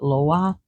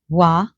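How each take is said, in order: First: It is said the New Orleans way, with the L. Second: It is said the Haitian way, without the L. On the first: This is how it is said in New Orleans. "In like New Orleans and everyone else, people call it Loa" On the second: This is how it is said in Haiti. "in Haiti, it's Wa"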